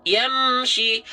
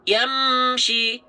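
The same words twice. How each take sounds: No difference in how they are said.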